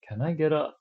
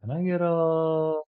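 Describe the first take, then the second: First: The final word stops abruptly. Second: The final word is stretched out long.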